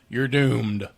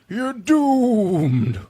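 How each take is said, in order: First: It is said in the speaker's ordinary voice. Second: It is said in a put-on creepy character voice. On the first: The speaker calls it wrong. "you can't just say" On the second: The speaker calls it right. "my voices"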